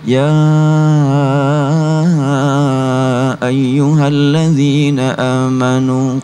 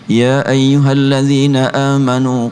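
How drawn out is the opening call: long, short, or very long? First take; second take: very long; short. First: The vowels of the call are drawn out longest. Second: The vowels of the call are kept short. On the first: The one called is even farther away. "Sekarang lebih panjang lagi" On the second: The one called is near. "Dibaca panggilan tersebut oleh kita dengan bacaan pendek"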